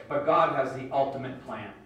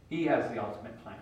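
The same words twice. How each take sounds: First: Said in the usual way. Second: Has leaned on, lower and softer; stress on has. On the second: Real, not acted. Preacher repeating to listeners, stress on has. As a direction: press the word has, quiet and sure.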